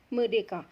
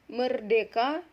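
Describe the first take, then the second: First: The middle R sound is left out. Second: The middle R sound is clearly pronounced. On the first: The speaker calls it wrong. "yang sering terdengar itu adalah medeka" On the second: The speaker calls it right. "Contohnya tadi seperti merdeka"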